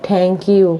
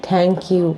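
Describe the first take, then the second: No difference in how they are said.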